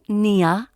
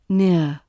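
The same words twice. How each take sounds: First: The word is split into two syllables. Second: The word is said as one smooth syllable. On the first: The speaker calls it wrong. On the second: The speaker calls it right.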